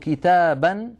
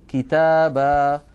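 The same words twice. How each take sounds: First: The word ends with a short a and n. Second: The word ends with a long drawn-out a. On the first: The speaker calls it wrong. "بدل أن يقولوا كتابا عند الوقف" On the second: The speaker calls it right. "يقولون كتابا"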